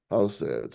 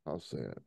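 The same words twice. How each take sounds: First: Said in the usual way. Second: Sad. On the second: Real, not acted. Reacting to bodies dumped in sea.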